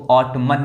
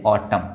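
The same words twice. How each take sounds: First: ऑटमन with an audible final N; N sounded. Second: ऑटम ending on M, no N; silent N. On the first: Teacher warning learners off it, ऑटमन with N sounded. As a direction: pronounce the N after M in ऑटमन. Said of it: "नहीं पढ़ेंगे". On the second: Teacher correcting learners, ऑटम with silent N. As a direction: lower ऑटम, N dropped. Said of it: "इसको क्या पढ़ेंगे". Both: Shown as a demonstration.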